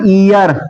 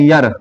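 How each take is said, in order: First: The word starts with a long 'ee' vowel. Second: The word starts with a short 'y' glide. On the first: "इसको पढ़ते हैं ईयर" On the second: "बहुत सारे लोग यर भी पढ़ते हैं"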